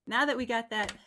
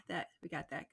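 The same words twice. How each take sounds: First: Said in the usual way. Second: Softer, lower repeat of that; quiet echo. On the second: Real, not acted. Host echoing his own words to himself, quietly. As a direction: murmur it again to yourself.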